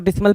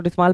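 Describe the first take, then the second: First: डिसमल with a short, unstressed last vowel; short-vowel dismal. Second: डिसमाल with a long "aa" in the last syllable; long-vowel dismaal. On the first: Teacher gives students one accepted reading, डिसमल with short final vowel. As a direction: say डिसमल as DIZ-muhl, last syllable short. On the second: Teacher gives students the other reading, डिसमाल with long final vowel. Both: Shown as a demonstration. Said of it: "pronunciation है".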